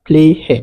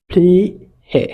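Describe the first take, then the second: First: "ফ্লি হে" as one word with long ee; joined-up model pronunciation. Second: "ফ্লি হে" split by a pause, long ee; syllable by syllable. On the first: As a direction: run "ফ্লি হে" together, leaning on the ee. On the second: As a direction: break apart "ফ্লি", pause, "হে". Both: Shown as a demonstration. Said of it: "হস্যই বা দীর্ঘের মতন উচ্চারণ হয়".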